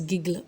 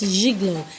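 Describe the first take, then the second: First: The first g is not said as zh. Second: The first g is said as zh. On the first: "some people call this as gigolo" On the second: "it's pronounced as gigolo"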